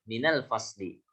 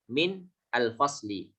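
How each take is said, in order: First: The n of min is followed by a. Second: The n of min has no following vowel. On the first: The vowel is added to make it easy to pronounce. The speaker calls it right. "nunnya fathah" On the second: This is the underlying form before the rule applies. The speaker calls it wrong. "Aslinya min"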